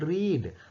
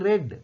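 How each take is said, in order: First: The word sounds like 'reed' with a long vowel. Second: The word sounds like 'red' with a short vowel. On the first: The action happens in the present. "வாசிக்கிறார்கள், ரீட்" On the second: The action happened in the past. "வாசித்தார்கள், அதுக்கு ரெட்"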